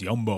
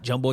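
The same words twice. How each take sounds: First: The word begins with a Y sound. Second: The word begins with an English J sound. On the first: The speaker calls it right. "it's Jumbo" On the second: The speaker calls it wrong. "it's not Jumbo"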